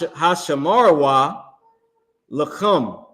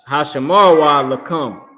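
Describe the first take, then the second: First: The last word starts with a harsh throaty sound. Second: The last word starts with a plain k sound. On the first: The speaker calls it wrong. "I put the too much emphasis on the word come" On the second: The speaker calls it right. "This is just ka, like kick"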